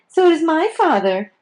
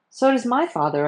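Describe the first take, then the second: First: It is said in a whining voice. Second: It is said in a plain voice.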